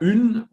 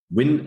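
First: The name starts with a rounded vowel. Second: The name starts with a 'w' sound. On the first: The speaker calls it wrong. "das war schon mal ein guter Versuch oder Ün" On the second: The speaker calls it right. "Win ist richtig"

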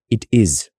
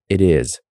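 First: It is said with a German accent. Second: It is said American-style, the T like a D.

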